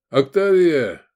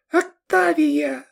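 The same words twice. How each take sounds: First: Raised, louder call by name. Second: Put-on very high, drawn-out girlish falsetto; squeaking. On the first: Sergei calling Octavia to pack food, raised call. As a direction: call her over. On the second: Pyshechka giving Sergei her name, tiny high squeak. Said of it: "пропищала Пышечка". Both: A narrator's reading.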